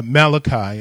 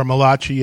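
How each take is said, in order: First: Said in the usual way. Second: "Malachi" in a light Italian accent; a hint of an Italian accent on "Malachi". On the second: Shown as a demonstration. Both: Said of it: "as if you're Italian".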